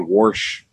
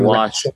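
First: The word has an r sound before the sh. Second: The word has no r sound before the sh. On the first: This is the speaker's old Missouri pronunciation. "Like I used to say warsh" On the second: This is the usual pronunciation elsewhere. "Instead of wash"

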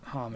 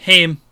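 First: The name is said with a Japanese-sounding pronunciation. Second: The name is said with an American-sounding pronunciation. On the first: The speaker calls it right. "It sounds more Japanese" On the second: The speaker calls it wrong. "My American brain going"

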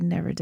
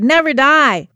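First: The phrase is said in a calm, flat way. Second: The phrase is said loudly and forcefully. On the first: The speaker calls it wrong. "I wouldn't say Never Die" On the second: The speaker calls it right. "There's a lot of exclamation points at the end of that"

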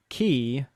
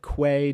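First: The word is said like 'kee'. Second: The word is said like 'kway'. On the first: The speaker calls it right. "it should be key" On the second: The speaker calls it wrong. "which is an accepted Americanized version of how it's pronounced, but it's like basically wrong"

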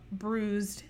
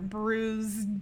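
First: The word is said quickly and unclearly. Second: The word is said slowly and clearly. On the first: The speaker calls it wrong. "Sorry, let me enunciate more" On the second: The speaker calls it right. "let me enunciate more"

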